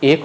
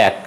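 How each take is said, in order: First: এক with closed "e", "ek"; wrong pronunciation. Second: এক with open "æ", "æk"; correct pronunciation. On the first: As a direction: say এক like English "ake". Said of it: "এক হবে না". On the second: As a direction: widen এক to the vowel of "hat". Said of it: "হবে". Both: Shown as a demonstration.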